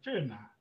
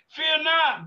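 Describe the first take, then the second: First: Soft, low "Fear not" from the angel; hushed angel. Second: "Fear not" shouted high and loud; preacher crying out to the prayer line, loud and high; proclaimed. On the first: Acted. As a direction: breathe it gently and low. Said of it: "the angel said". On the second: Real, not acted. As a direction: belt out "Fear not" to the congregation. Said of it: "preacher proclaims to the church".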